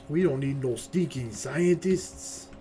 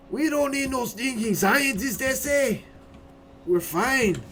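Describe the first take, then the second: First: Slow, hammed-up Mexican accent; horrible Mexican accent. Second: High, loud, slow Mexican bandit parody; over-the-top Mexican accent, pitched way up; horrible Mexican accent. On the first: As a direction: draw it out in a bad Mexican accent. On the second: Acted. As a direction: belt out a bad Mexican accent. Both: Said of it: "my horrible Mexican accent".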